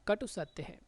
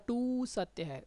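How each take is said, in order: First: The final vowel of katu is short. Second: The final vowel of katu is long. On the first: The speaker calls it right. "कटु मतलब छोटा" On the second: The speaker calls it wrong. "ऐसा नहीं होता"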